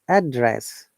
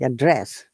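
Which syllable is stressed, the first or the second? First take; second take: first; second. First: The stress is on the first syllable. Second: The stress is on the second syllable. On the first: It is used as a noun. "we have to stress on the first part to make it noun" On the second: It is used as a verb. "we have to stress in the second part to make it verb"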